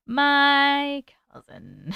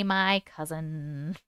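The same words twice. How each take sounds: First: "My" stretched with a rising tune; stress on my. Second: "my" leaned on, slow and soft; slow "my cousin" with weight on "my"; stress on my. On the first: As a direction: draw out "My cousin" very slowly, rising. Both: Real, not acted. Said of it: "Not me, Jenny".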